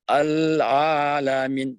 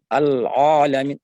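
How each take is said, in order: First: Al-alamin slow with a light, thin ain; correct thin ain. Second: Al-alamin with a pressed, heavy ain, louder; wrong heavy ain. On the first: Teacher giving students the right version, slow. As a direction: say Al-alamin gently and thinly. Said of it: "Ucapkan dengan lembut tipis". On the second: Teacher demonstrating the mistake, loud and heavy. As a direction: push the ain in al-alamin too hard. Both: Shown as a demonstration.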